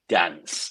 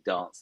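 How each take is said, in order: First: It is said in a Manchester accent. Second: It is said in a southern English accent. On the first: The speaker calls it right. "We want you to say dance" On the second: The speaker calls it wrong. "I had a southern accent, and I was saying dance"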